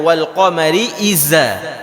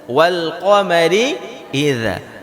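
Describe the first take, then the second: First: The consonant is said as a plain z sound. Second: The consonant is said with tongue between teeth. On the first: The speaker calls it wrong. "Jadi jangan dibaca zai. Jangan dibaca wal qamari iza" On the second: The speaker calls it right. "Huruf dzal itu keluarnya lidah kita harus melewati gigi"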